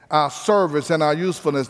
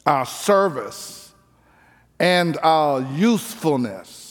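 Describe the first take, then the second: First: Said in the usual way. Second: Drawn out slowly word by word; slow, spaced emphasis. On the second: Shown as a demonstration. Preacher to congregation, spelling out the point slowly. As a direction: lay each word down slowly with pauses.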